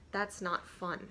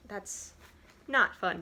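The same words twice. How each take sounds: First: Said in the usual way. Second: Not punched louder, falling; stress on not. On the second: Real, not acted. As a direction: hit the word not hard. Repeats line with emphasis.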